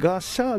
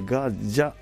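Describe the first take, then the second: First: The middle consonant is a voiceless 'sh'. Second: The middle consonant is a voiced 'j'. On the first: The speaker calls it wrong. "ガシャではなくて" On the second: The speaker calls it right. "ガジャで濁る"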